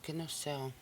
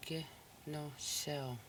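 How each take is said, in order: First: Said in the usual way. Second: Kinusel said slowly with long syllables; slow teaching pronunciation; slow, drawn out. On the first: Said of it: "The next word". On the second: Shown as a demonstration. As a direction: stretch Kinusel out for the learners.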